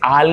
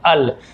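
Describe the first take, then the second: First: The vowel is long, like 'aal'. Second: The vowel is short, like 'ul'. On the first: The speaker calls it wrong. "इसे आल नहीं पढ़ेंगे" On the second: The speaker calls it right. "A L तो अल"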